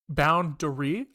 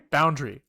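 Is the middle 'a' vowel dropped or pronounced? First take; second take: pronounced; dropped. First: The middle 'a' vowel is clearly pronounced. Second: The middle 'a' vowel is dropped entirely. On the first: It is said as a joke. "when I was saying boundary like a fucking joke" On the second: This is the everyday way of saying it. "I always say boundary, like that"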